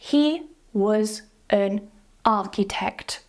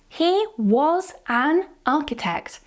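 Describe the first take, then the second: First: The small words are reduced with schwa sounds. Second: The small words are full and heavily stressed. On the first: It sounds natural. The speaker calls it right. "to make it sound more natural, we use the schwa" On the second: The speaker sounds angry. The speaker calls it wrong. "It sounds like I'm really angry with you. So I'm really stressing those unimportant little words"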